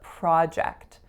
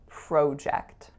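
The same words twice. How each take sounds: First: The first vowel is an open 'ah' sound. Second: The first vowel is a rounded 'oh' sound. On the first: This is the American pronunciation. "In the States, it tends to be ah" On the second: This is the Canadian pronunciation. "In Canada, it tends to be o"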